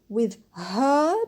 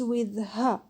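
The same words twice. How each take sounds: First: The word 'her' is said in full. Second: The word 'her' is reduced to a schwa.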